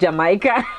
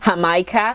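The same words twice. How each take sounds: First: It is pronounced in a non-Mexican way. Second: It is pronounced the way Mexicans say it. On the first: "I used to pronounce it Jamaica" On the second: "Mexicans pronounce this Jamaica"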